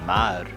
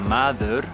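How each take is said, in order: First: The word is shortened to one syllable. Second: The word is said in full, with two syllables. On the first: This is how people say it in the street. "in the street you will hear it like mar ... They almost drop the ed and the u" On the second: This is the form taught in school. "you're taught at school that you say maður"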